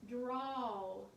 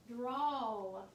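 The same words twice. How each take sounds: The two takes are said the same way.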